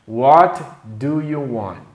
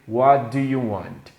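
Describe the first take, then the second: First: It is said at a normal speed. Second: It is said fast.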